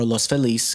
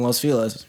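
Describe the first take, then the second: First: Feliz is said with a Spanish pronunciation. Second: Feliz is said with an anglicized pronunciation.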